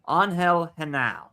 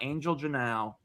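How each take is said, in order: First: The surname begins with a soft H sound. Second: The surname begins with a J sound. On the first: The speaker calls it right. "That is how you pronounce it" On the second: The speaker calls it wrong. "not Angel Janao"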